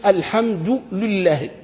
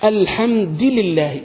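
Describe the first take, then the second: First: "الحمد لله" as al-hamdu lullahi, slowly; damma on lam, slow. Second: "الحمد لله" as al-hamdi lillahi, drawn out; kasra reading, slow. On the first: Teacher demoing the other reading, lam with damma. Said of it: "بالضم اللام". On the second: Teacher repeating the rare reading slowly. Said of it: "كيف القراءة الشاذة تقرأ؟". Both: Shown as a demonstration.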